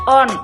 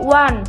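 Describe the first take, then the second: First: It is pronounced as spelled, starting with o. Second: It is pronounced 'wun' with a w sound. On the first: The speaker calls it wrong. "yang membacanya on, one, karena tulisannya one" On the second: The speaker calls it right. "satu itu bahasa Inggrisnya one"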